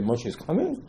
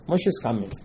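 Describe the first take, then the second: First: "Moshe is coming" rising on "coming"; doubting question. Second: "Moshe is coming" softly falling at the end; plain assertion. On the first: People answering Hur, "Moshe is coming" as a doubting question. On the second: Hur telling Am Yisrael "Moshe is coming", quietly assured. Statement answered by doubting question. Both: Acted.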